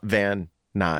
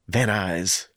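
First: Both n sounds are clearly pronounced separately. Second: Only one n sound joins the two words. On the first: The speaker calls it wrong. "Not Van Nuys" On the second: The speaker calls it right. "You don't pronounce both N's in Van Nuys"

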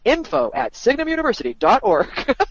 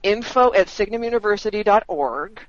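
First: It is said in a put-on announcer voice. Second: It is said in an ordinary speaking voice.

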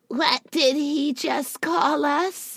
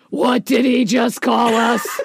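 First: It is said in a childlike voice. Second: It is said in an adult voice.

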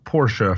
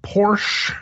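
First: The name is said with two syllables. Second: The name is said as one syllable. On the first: "Like Porsche de Rossi" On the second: "I once upon a time said Porsche"

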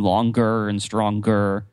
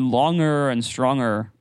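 First: The g after the ng sound is clearly pronounced. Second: The g after the ng sound is not pronounced.

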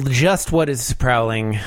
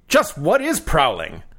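First: It is read in a plain, natural voice. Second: It is said in a gruff put-on character voice. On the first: The speaker calls it wrong. "I did not read that very well" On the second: The speaker calls it right. "I got to do my Garfield voice. I'm going for a little bit of a Rodney Dangerfield"

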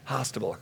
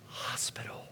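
First: The word is said as hostable. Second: The word is said as hospital. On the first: The speaker calls it wrong. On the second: The speaker calls it right.

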